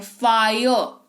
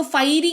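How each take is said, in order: First: फायर as "faa-yo", drawn out; correct pronunciation. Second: फायरी said "faa-ee-ree", ending in long ee; wrong literal reading. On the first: Teacher answering how we read it, clear "faa-yo". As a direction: say फायर with a gliding "aa-yo". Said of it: "क्या पढ़ते हैं?". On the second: Teacher asking why not read it so, literal "fai-ree". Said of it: "इसको फायरी क्यों नहीं पढ़ा". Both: Shown as a demonstration.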